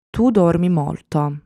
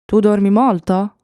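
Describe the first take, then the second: First: Said in the usual way. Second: "Tu dormi molto" lifted in pitch and louder, as a question; question intonation. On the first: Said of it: "the intonation of the voice rises". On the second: Shown as a demonstration. Teacher showing students how intonation makes a question, questioning lift on "Tu dormi molto". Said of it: "It's just a matter of intonation".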